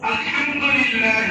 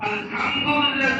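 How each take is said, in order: First: The h is thin, breathy, from mid-throat. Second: The h is a plain, ordinary h sound. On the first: All praise belongs to God. The speaker calls it right. "গলা চিকন করে কণ্ঠনালীর মধ্যখান থেকে আসবে, অনেক পাতলা হয়ে আসবে, হাওয়ার সাথে আসবে" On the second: All filth belongs to God. The speaker calls it wrong. "হাটাকে যদি হা বলে"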